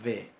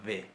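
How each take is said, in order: No difference in how they are said.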